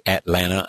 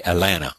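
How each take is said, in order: First: "Atlanta" with both t's sounded; unwanted careful pronunciation. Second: "Atlanta" with the t's dropped, Alanna; Georgia-style "Atlanta", no t's at all; local Georgia pronunciation. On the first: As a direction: pronounce the first t in "Atlanta", At-lan-ta. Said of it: "I don't say Atlanta". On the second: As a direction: say "Atlanta" as uh-LAN-uh. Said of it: "You say it like you're from Georgia". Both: Shown as a demonstration.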